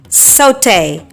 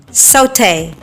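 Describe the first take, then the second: First: It is said in a British English accent. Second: It is said in a British English accent.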